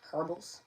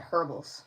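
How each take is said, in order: First: Herbals with the h dropped, ER-bals rising; odd pronunciation. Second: Said in the usual way. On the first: Real, not acted. Reader catching her own odd say of Herbals. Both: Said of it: "Why'd I say it like that?".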